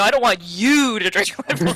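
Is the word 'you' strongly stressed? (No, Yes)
Yes. The word 'you' carries strong stress. The speaker objects to this particular person drinking. The speaker calls it right. "It's where you put your emphasis"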